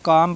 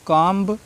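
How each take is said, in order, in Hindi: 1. अंतिम b ध्वनि silent है। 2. अंतिम b ध्वनि का उच्चारण होता है। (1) "काम पढ़ेंगे" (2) "नहीं पढ़ना है"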